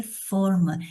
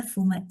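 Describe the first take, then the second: First: "forma" with an open ó. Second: "forma" with a closed ô; closed first vowel in "forma". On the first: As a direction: say "forma" as fórma, with an open-mid o. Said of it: "não é forma". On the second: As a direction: say "forma" as fôrma, with a close-mid o. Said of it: "Forma é uma palavra que pode ou não ter acento". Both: Shown as a demonstration.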